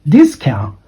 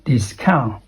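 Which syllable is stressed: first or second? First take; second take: first; second. First: The stress is on the first syllable. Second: The stress is on the second syllable. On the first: The speaker calls it right. "That should be pronounced as discount ... the first syllable goes up and the second syllable goes down" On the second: The speaker calls it wrong. "not discount"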